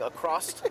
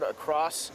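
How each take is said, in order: First: The word ends with an added t sound. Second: The word ends cleanly with an s sound. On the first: The speaker calls it wrong. "instead of saying across all the time" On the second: The speaker calls it right. "you pronounce the word across without an ED at the end"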